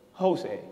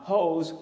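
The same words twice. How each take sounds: First: The stress is on the first syllable. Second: The stress is on the second syllable. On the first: The speaker calls it wrong. "and not Jose" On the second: The speaker calls it right. "has an accent right there on the E"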